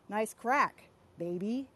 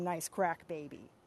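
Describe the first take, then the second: First: There is a pause before 'baby'. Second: There is no pause before 'baby'. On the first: "if you put a comma in there" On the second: "that's a totally different sentence from"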